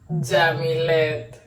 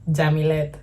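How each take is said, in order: First: The name is said slowly. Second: The name is said at normal speed.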